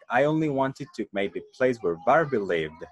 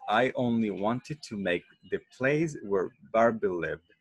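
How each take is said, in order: First: The sentence is spoken at a faster pace. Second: The sentence is spoken at a slower pace.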